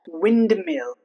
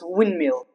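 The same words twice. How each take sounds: First: The D sound is pronounced. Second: The D sound is silent. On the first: The speaker calls it wrong. "It's not windmill" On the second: The speaker calls it right. "It's windmill"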